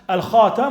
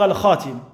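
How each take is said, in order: First: The vowel after the t is 'a'. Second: The vowel after the t is 'i'. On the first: "avec une fatha sur le ta" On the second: "ou alors avec une kasra"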